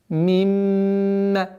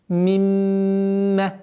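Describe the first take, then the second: The two takes are said the same way.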